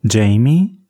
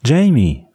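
First: "Jamie" with a rising questioning end. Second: Higher call with falling end. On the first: Catherine looks for Jamie from the veranda, "Jamie" rising as a question. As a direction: ask "Jamie" with the pitch lifting at the end. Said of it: "fragte Catherine". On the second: Catherine calls Jamie a second time, calling out. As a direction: call the name out, pitch up then dropping. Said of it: "rief sie nochmals". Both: A narrator's reading.

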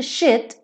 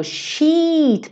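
First: Shit with a short, clipped i; short vowel shit. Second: Sheet with a long, high ee; long vowel sheet. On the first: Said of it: "som curto". (shit com vogal curta) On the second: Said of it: "esse som de vogal longo". (sheet com vogal longa e aguda) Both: Shown as a demonstration.

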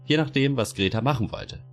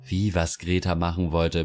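First: Higher, measured bureaucrat answer; "was Greta machen wollte" as a calm falling statement; explaining official. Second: Indignant echo of "was Greta machen wollte"; blurting out. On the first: Official hedging to Greta, higher and matter-of-fact. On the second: Greta echoing the official, blurting it out indignantly. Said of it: "platzt es aus Greta heraus". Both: A narrator's reading.

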